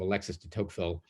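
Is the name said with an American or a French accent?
American. The name is said with an American accent. "people call him Alexis de Tocqueville just like that because we think of him as an American"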